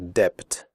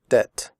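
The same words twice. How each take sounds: First: A b sound is heard before the t. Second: No b sound is heard before the t. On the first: The speaker calls it wrong. "In the word debt, the b is silent. We do not say debt" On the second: The speaker calls it right. "We say debt"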